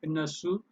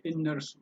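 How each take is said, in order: First: እነሱ as e-ne-su, with no r; pronunciation demo. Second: እነርሱ as e-ner-su, with an r; variant pronunciation. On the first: Teacher giving the first option, እነሱ demonstrated without r. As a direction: leave any r out of እነሱ. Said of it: "you say እነሱ". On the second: Teacher giving the other option, እነርሱ demonstrated with r. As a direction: sound the r before su in እነርሱ. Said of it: "or you can say". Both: Shown as a demonstration.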